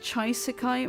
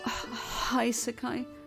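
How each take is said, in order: First: The word begins with a 'chai' sound. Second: The word begins with a 'high' sound. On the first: The speaker calls it right. "it would be pronounced like Chaisekai" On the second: The speaker calls it wrong. "not Haisekai. That that sounds like High World"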